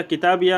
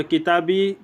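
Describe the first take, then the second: First: किताबिया with "ya" at the end; fatha ending. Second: किताबी closing on a long "ee"; sukun ending. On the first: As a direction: say किताबिया as ki-taa-bi-ya. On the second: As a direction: say किताबी as ki-taa-bee, no final "a". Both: Shown as a demonstration. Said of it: "फ़तह और सुकून दोनों जायज़".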